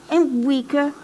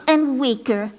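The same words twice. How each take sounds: The two takes are said the same way.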